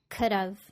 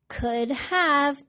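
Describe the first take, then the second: First: Have is reduced and joined to could. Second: Have is said in full.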